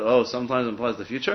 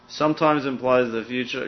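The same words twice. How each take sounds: First: Rising question, oh stretched; teacher feigning disbelief at opposites; mock surprise. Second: Laid out slowly, stress on sometimes; teacher stating the rule slowly; slow statement. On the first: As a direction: act puzzled at the contradiction. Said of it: "they're opposites". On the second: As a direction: state it plainly, leaning on sometimes. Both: Shown as a demonstration.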